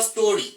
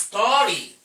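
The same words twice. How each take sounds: First: The vowel in the first syllable is short. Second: The vowel in the first syllable is long. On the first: The speaker calls it wrong. "It's not story" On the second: The speaker calls it right. "that segment of the pronunciation is usually long"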